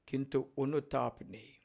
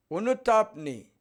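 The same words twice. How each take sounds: First: Said in the usual way. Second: অনুতাপ নেই raised, louder and slow; emphatic repeat. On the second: Shown as a demonstration. Priest scolding the unrepentant, emphatic and raised. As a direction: hammer home অনুতাপ নেই.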